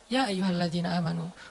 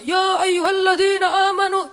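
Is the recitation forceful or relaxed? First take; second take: relaxed; forceful. First: It is recited in a calm, relaxed way. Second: It is recited loudly and forcefully, like shouting.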